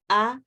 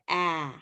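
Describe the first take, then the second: First: The vowel is the Spanish a, held higher. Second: The vowel is the open cat vowel, said lower. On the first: The speaker calls it wrong. "tends to come up here to a, como en español" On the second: The speaker calls it right. "but we want to come down to a"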